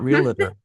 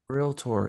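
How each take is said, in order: First: The word is said with three syllables. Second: The word is said with two syllables. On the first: The speaker calls it wrong. "It's not realtor" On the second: The speaker calls it right. "this two syllable word"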